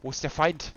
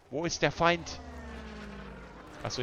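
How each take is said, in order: First: Put-on gruff German soldier accent, a bit higher and louder. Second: Put-on German accent. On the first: Player calling out to teammates in mock German accent. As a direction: call out for the enemy like a German soldier. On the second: Player repeating the call in mock German accent. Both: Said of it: "I need to lose the German accent".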